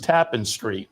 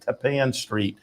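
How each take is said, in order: First: The stress is on the first syllable. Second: The stress is on the second syllable. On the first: The speaker calls it wrong. "when the horse raced uh, early on, it was Tappan Street" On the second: The speaker calls it right. "it's more rhymes with Japan"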